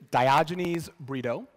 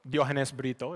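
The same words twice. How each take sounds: First: The name is pronounced the anglicized way. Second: The name is pronounced the original way.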